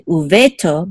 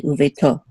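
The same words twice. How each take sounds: First: Uveto stressed on the middle syllable VE; wrong stress. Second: Uveto with the accent on the final TO; stress on last syllable. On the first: Teacher showing students how not to say uveto, stress wrongly on VE. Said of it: "make sure that we don't say". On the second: Teacher showing students the accent mark in uveto, stress on TO. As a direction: land on the end of uveto, u-ve-TO. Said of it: "the accent is on to". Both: Shown as a demonstration.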